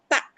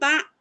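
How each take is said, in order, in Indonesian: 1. Suku katanya dibuat tanpa bunyi sengau. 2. Suku katanya didorong lewat hidung. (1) "tapi tak" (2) "jangan masuk ke hidung. Jadi bukan tak"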